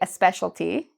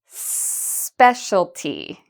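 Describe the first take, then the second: First: An extra vowel sound comes before the s. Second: The word starts directly with the s sound. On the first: The speaker calls it wrong. "A lot of Spanish speakers will add this E" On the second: The speaker calls it right. "And now let's link it"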